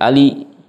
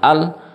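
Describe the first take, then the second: First: The word ends with an added i vowel. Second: The word ends on a bare consonant. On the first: "diganti dengan kasra" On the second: "tadinya lam ta'rifnya tadinya sukun"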